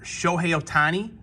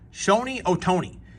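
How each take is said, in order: First: The name is said as Shohei Ohtani. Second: The name is said as Shoni Otoni. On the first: The speaker calls it right. "I can't even say it right anymore" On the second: The speaker calls it wrong. "his eighty-year-old father-in-law calls"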